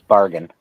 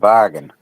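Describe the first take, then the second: First: It is said in the speaker's ordinary accent. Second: It is said in an imitated, put-on accent. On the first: "normally pronounce it as bargain" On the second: "every time you say bargain, you sound like Darlene"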